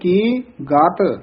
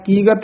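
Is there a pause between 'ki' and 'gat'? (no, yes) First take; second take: yes; no. First: There is a short pause between the two words. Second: The two words run together without a pause. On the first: The speaker calls it right. "ਥੋੜਾ ਜਿਹਾ ਠਹਿਰਾ ਦੇ ਕੇ ਫਿਰ ਬੋਲਣਾ ਗਾਤ" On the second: The speaker calls it wrong. "ਕੀਗਤ ਨਹੀਂ ਕਹਿ ਦੇਣਾ"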